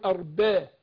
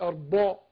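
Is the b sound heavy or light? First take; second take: light; heavy. First: The b sound is light and thin. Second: The b sound is heavy and thick. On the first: The speaker calls it right. "الباء مرخخة، هنقول أرباء" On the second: The speaker calls it wrong. "مش أرباء"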